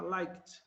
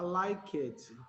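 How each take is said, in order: First: Liked as one syllable ending in a T, laikt; correct pronunciation. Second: Liked said as lai-ket, with an extra vowel at the end; wrong pronunciation. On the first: Teacher modelling the right past tense, liked as laikt. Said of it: "vai pular direto, vai ficar". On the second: Teacher showing students the error, liked as lai-ket. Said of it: "não dá pra você pronunciar liked". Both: Shown as a demonstration.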